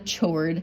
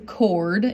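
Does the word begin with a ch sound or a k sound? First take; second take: ch sound; k sound. First: The word begins with a ch sound. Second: The word begins with a k sound. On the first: The speaker calls it wrong. "It's not a chord" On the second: The speaker calls it right. "It's a chord. You don't pronounce the H"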